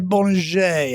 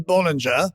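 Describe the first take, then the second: First: The name is said with a French pronunciation. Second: The name is said with an English pronunciation. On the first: "I think the French say" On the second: "The English say"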